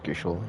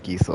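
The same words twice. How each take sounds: First: Gysahl as GISH-ul, with SH; short i and a sh sound in Gysahl; own old pronunciation. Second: Gysahl as GEE-sul, plain S; first speaker's pronunciation. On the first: Shown as a demonstration. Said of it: "I'm pretty sure I pronounced it". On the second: Retold or imitated. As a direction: stretch the EE in Gysahl, no SH. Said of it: "the first person said Gysahl".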